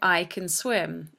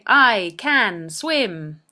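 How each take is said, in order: First: The word can is reduced to kun. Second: The word can has a full vowel. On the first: The speaker calls it right. "can, in this sentence, is pronounced kun" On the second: The speaker calls it wrong. "You don't actually say it like that"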